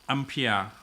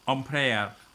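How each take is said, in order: First: It is pronounced the American English way. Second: It is pronounced the French way. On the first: "United States. Uh, English, they're gonna call ampere" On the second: "In French, uh, it's gonna be called ampere"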